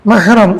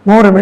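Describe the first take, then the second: First: The word begins with an open 'mah' sound. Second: The word begins with a rounded 'moh' sound. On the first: The speaker calls it right. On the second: The speaker calls it wrong.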